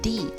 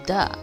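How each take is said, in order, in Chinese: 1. 这是用在元音前的形式。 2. 这是用在辅音前的形式。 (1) "如果是母音的话，通常我们就用the" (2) "如果是子音的话就the"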